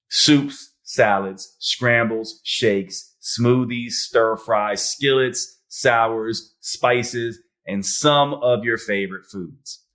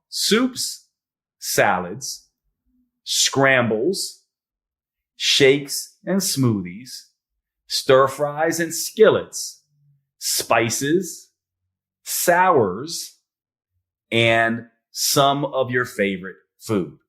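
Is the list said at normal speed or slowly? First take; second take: normal speed; slowly. First: The list is said at normal speed. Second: The list is said slowly.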